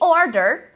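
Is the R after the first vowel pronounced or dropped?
pronounced. The R after the vowel is pronounced.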